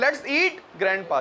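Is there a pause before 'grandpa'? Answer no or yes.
yes. There is a short pause before grandpa. Grandpa is being invited to eat. "एक comma लगाया मैंने"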